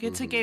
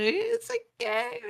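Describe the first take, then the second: First: It is said in a normal voice. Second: It is said in a put-on character voice.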